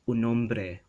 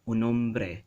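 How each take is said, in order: No difference in how they are said.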